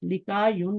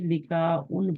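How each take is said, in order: First: A y sound comes before the final 'un'. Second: A glottal stop comes before the final 'un'. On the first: The speaker calls it wrong. "लिका यून नहीं पढ़ते" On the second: The speaker calls it right. "बल्कि लिका उन पढ़ते हैं"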